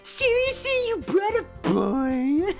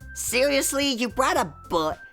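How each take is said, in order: First: It is read in a put-on Natsuki voice. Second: It is read in the speaker's natural voice.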